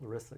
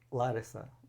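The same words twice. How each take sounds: First: The name is pronounced the American way. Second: The name is pronounced the Greek way.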